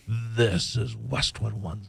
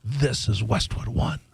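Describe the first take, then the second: First: Low, slow growly network ID; growly announcer voice. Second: Lightly imitating a deep announcer; slow, low network ID. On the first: Retold or imitated. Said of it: "No, no, he goes". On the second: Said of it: "Do I sound like the guy from Westwood One?".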